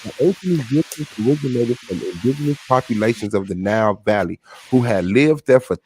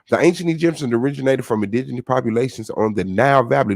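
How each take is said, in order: First: It is read at a slow pace. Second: It is read at a fast pace.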